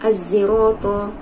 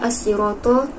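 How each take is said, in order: First: The consonant is blended toward a z. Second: The consonant is a plain emphatic s.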